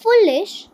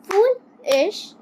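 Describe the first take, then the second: First: Said in the usual way. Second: foolish stretched slowly into two beats; slow syllable demo. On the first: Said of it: "teacher reads word list". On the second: Shown as a demonstration. Teacher to pupils, slowly clapping syllables. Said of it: "teacher repeats slowly".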